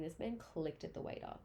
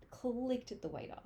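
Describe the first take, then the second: First: Said in the usual way. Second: Clicked said higher, louder and slower; slow, outraged repeat stressing Clicked. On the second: Real, not acted. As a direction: hit Clicked hard in disbelief.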